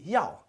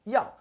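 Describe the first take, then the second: First: The word begins with a y sound. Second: The same.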